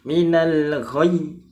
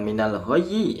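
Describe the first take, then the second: First: The final consonant is held with no vowel after it. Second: The final consonant is released with an added i vowel. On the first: The speaker calls it right. "tapi ditahan ya" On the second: The speaker calls it wrong. "Jangan minal ghayyi ya"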